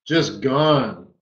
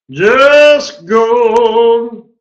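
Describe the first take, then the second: First: Said in the usual way. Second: Just gone belted out high and loud; excited shout. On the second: Real, not acted. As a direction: shout it like the trade just exploded. Trader repeats exclamation about trade.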